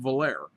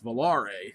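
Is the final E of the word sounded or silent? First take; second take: silent; sounded. First: The final E is silent. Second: The final E is sounded. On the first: The speaker calls it wrong. "I always pronounce it" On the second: The speaker calls it right. "it has actually has a little thing on the uh, E"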